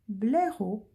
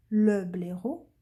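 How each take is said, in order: First: Said in the usual way. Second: "le" set out clearly before "blaireau"; stress on LE. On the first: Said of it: "on ne dira pas". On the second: Shown as a demonstration. Teacher showing pupils the article to add, stressing "le". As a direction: lean on the article "le", then say "blaireau". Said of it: "on dira le blaireau".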